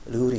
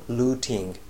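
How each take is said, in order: First: The middle consonant is a soft flapped D sound. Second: The middle consonant is a clear T sound. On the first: "ルーティンがルーリンっていうになると" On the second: "しっかり発音するとルーティング、これはイギリス人はですからそういうふうに発音する"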